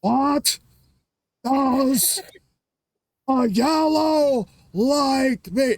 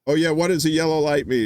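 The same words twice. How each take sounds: First: Very slow, high, loud, word by word; hammed-up dim cabbie, painfully slow; Reverend Jim. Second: Quick, louder, higher quoted question; lightly acted test question. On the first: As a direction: stretch each word out in a loud high strain. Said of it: "so Reverend Jim goes". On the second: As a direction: ask it briskly, slightly raised. Jim's question at usual speed.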